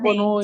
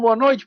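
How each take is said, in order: First: The pitch and volume stay flat and even. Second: The pitch and volume rise and fall expressively. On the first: The audience drifts away and stops listening. The speaker calls it wrong. "nessa mesma linha, nesse mesmo volume" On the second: It keeps the audience awake and paying attention. The speaker calls it right. "com a entonação de falar assim ... E você vai aumentando, depois você abaixa"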